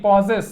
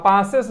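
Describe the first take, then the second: First: Possess with a rounded 'o' in the first syllable; O vowel in possess. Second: Passes with an open 'aa' in the first syllable; wrong vowel in passes. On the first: Teacher correcting the reading for the class, possess said with an 'o' sound. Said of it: "ओ होगा". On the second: Teacher showing the class a misreading, passes said with 'aa' for 'o'. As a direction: say passes as 'PAA-ses', the mistaken reading. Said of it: "passes नहीं, possess, ओ होगा". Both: Shown as a demonstration.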